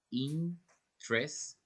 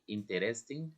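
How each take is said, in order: First: Interesting as "in-tres-ting", slowly split; slow, spaced "interesting" without the middle "e"; three syllables. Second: Interesting with every vowel, "in-te-res-ting"; the wrong "interesting", pronouncing the middle "e"; spelling pronunciation. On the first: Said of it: "Three syllables". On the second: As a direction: say "interesting" as written, four syllables. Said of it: "You don't say interesting". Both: Shown as a demonstration.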